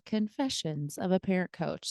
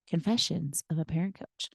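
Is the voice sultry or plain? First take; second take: plain; sultry. First: It is said in a plain, upbeat voice. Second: It is said in a low, sultry voice.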